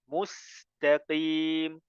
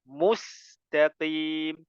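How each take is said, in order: Both takes have the same delivery.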